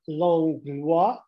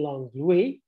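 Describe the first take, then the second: First: The name is said in its non-contemporary pronunciation. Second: The name is said in its contemporary pronunciation.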